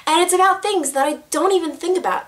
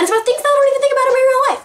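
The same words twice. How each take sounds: First: Drawn-out deliberate take; too slow. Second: Rushed, high and louder gabble; too fast. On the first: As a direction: stretch each word out carefully. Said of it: "Oh my gosh, I said that so slow". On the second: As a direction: blurt the whole sentence at racing speed. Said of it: "Oh my gosh, that was so fast". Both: Shown as a demonstration.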